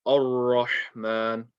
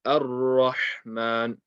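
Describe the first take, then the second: First: Drawn-out "Ar-Rahman" opening on a heavy "oh"; heavy alif mistake. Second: Slow "Ar-Rahman" opening on a light "a", then heavy ra; light alif. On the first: Teacher imitating a common mistake, heavy alif. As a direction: say the first vowel of "Ar-Rahman" as oh, slowly. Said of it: "they're saying oh instead of a". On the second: Teacher correcting the common mistake, light alif. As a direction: keep the first vowel of "Ar-Rahman" a light a, drawn out. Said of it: "the alif is light, the ra is heavy". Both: Shown as a demonstration.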